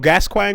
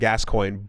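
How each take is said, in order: First: The name gets a French-style pronunciation. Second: The name gets an English-style pronunciation. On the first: The speaker calls it wrong. "super wrong" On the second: The speaker calls it right. "one hundred percent Gascoigne"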